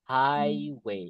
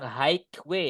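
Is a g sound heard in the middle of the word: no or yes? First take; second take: no; yes. First: No g sound is pronounced in the middle. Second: A g sound is pronounced in the middle. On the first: The speaker calls it right. "G-nya nggak dibaca" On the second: The speaker calls it wrong. "Nggak boleh bilang highway ya"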